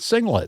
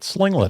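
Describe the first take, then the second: First: The word starts with a plain S sound. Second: The word starts with an SL sound. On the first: The speaker calls it right. "I can't pronounce the word singlet" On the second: The speaker calls it wrong. "I'm calling it slinglet apparently"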